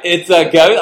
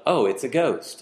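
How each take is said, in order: First: Loud, high-pitched cry of alarm; mock screaming. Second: Understated, unbothered remark; mock calm remark. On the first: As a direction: cry out as if terrified, hammed-up. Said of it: "they're screaming". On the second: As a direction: say it casually, as if a ghost were nothing. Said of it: "How does that sound?". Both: Shown as a demonstration.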